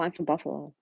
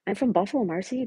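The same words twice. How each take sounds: First: Said in the usual way. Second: Firm correction with lift on from; emphatic repeat. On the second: Real, not acted. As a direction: insist on it, rising.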